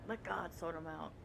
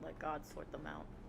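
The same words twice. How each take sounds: First: It is said in a forceful, intense voice. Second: It is said in a relaxed, calm voice. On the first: "It's very intense" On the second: "I'm like saying it in my most chill voice ever"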